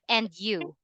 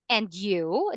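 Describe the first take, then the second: First: The pitch falls at the end. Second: The pitch rises at the end. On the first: It does not sound like a question back. The speaker calls it wrong. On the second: The speaker is asking the listener back. The speaker calls it right. "The intonation is going up because you're asking me"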